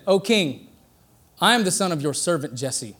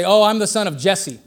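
First: Softer, humble, respectful reply to the king; bow your voice to the king; humble answer. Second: Said in the usual way. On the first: Retold or imitated. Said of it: "No, he said". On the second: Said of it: "He didn't say".

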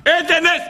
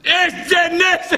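First: Excited exclaim. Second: Slow, stretched-out wonder, much higher; amazed. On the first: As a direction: blurt it out in delight. Amazed at the miracle. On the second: The man marvels at his magic stick, slow and awed. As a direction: draw it out in awe. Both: Retold or imitated.

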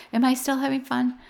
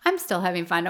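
First: Quoting a higher-pitched question on "Am I still having fun"; joking question. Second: "I'm still having fun" settled back at usual pitch; joking answer. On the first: [name] retelling Michael's running joke, as a higher-pitched question. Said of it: "he's like". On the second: [name] retelling Michael's running joke, as a level-pitched answer. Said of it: "Michael joke". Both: Retold or imitated.

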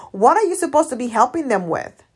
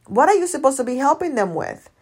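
No difference in how they are said.

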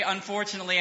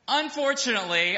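First: Said in the usual way. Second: "Unfortunately" said louder, with mock dismay; louder "Unfortunately" for a laugh; emphatic unfortunately. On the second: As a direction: hit "Unfortunately" hard, as a comic lament. Mock regret, repeated word.

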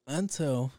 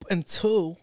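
First: Said in the usual way. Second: "Until," hit high and loud; drawn-out, loud "Until,"; emphatic until. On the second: Real, not acted. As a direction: punch "Until," as the big turn. Dramatic turn to his theory.

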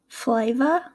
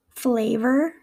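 First: Aussie "flavor", like "fly-vah"; attempted Australian "flavor", r dropped; Australian accent, wide glide in "flavor". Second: American "flavor", "flay-ver"; American accent, ay vowel in "flavor". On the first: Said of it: "my attempts at an Australian accent". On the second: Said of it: "in my American accent". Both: Shown as a demonstration.

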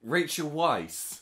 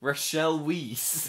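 First: Rachel said as "RAY-chul", Weisz as "vice" with a W; slow, firm Rachel Weisz, "RAY-chul wice"; correcting pronunciation. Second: Rachel Weisz drawn out as "ra-SHELL WEEZE"; slow, louder mock "ra-shell weeze" for Rachel Weisz; mocking mispronunciation. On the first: Shown as a demonstration. Co-host corrects the misread name, firm correct Rachel Weisz. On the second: Co-host teases the misreading, mock mispronounced Rachel Weisz. Mocks the mispronunciation just heard.

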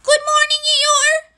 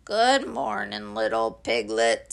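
First: High, loud call across a distance; high-pitched small-creature holler; Piglet shouting. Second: Gloomy Eeyore. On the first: A narrator's reading. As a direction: shout a greeting in a piercingly high little voice. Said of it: "shouted Piglet". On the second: Acted. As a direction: drag the greeting out glumly, sinking low. Gloomy Eeyore answers Piglet.

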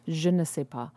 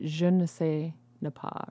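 First: "Je ne sais pas" with no second ne; corrected French phrase. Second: "Je ne sais ne pas" with an extra ne before pas; wrong French phrase. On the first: Shown as a demonstration. Correcting the stranger's phrase to proper French. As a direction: say "Je ne sais pas" cleanly, just one ne. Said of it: "that's what it is, not ne pas". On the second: Retold or imitated. Imitating the stranger's garbled "Je ne sais ne pas". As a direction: say "ne" twice, the second before "pas". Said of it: "or something like that".

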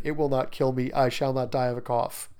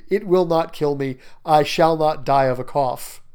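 First: Said in the usual way. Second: "not" and "die" hit firmly; louder, insistent "It will not kill me"; emphatic denial. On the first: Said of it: "the repetition". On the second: Acted. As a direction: punch each word of "I shall not die of a cough". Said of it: "Notice the emphasis there".

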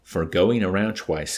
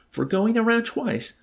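First: Slow, louder, settled answer at usual pitch; reflective, smug confirmation, drawn out; self-satisfied answer. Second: Very high, loud echo question; disbelieving question, leaping up in pitch; incredulous. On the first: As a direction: state it slowly, pleased with yourself. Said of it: "answered with a reflective, self-satisfied smile". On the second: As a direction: throw it back in disbelief. Incredulous colonel questions the medal. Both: A narrator's reading.

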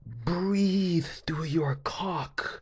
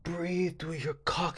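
First: Slow, whispered mock guide. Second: Soft mock guide. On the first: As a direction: breathe the words out unvoiced. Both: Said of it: "she was like".

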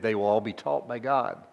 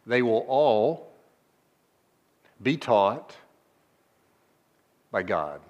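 First: Said in the usual way. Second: They will all... be taught... by God, each piece set apart; emphasis on "by God" for the congregation; slow with pauses, weight on by God. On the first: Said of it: "This is the, where the emphasis is, is by God". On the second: Shown as a demonstration. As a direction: linger between words, then land on "by God". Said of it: "where the emphasis is, is by God".

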